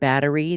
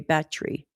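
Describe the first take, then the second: First: It is said in a plain everyday accent. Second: It is said in an elegant, refined accent. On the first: "instead of battery" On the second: "they speak in this elegant form"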